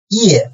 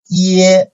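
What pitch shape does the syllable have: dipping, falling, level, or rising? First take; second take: falling; level. First: The pitch falls sharply from high to low. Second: The pitch stays high and level.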